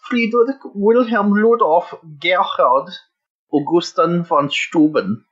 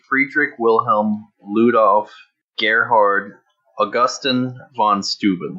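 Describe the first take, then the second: First: The name is said in a put-on German accent. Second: The name is said in a plain, unaccented voice. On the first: "can I do the German one?" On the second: "I got to play this one straight"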